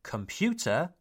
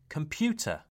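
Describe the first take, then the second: First: COMPUTER as 'com-pu-terr', R clearly sounded; sounded final R. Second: COMPUTER as 'com-pyoo-tuh', no R; non-rhotic. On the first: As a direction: finish computer on a heavy R. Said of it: "is not pronounced computer". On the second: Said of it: "it's pronounced computer". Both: Shown as a demonstration.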